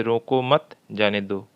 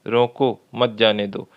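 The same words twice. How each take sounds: First: "रोको मत" run together, then a pause before जाने; pause after मत. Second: रोको set apart, then "मत जाने दो" run together; pause after रोको. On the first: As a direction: break the phrase right after मत. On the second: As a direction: break the phrase right after रोको. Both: Shown as a demonstration. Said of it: "ये जो ठहराव है".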